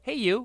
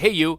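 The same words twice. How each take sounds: First: It is said with a changed, special melody. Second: It sounds like a casual buddy greeting. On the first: It covers for not knowing her name. The speaker calls it right. "You gotta go "Hey you."" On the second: It greets a friend casually. The speaker calls it wrong. "you don't say "Hey you.""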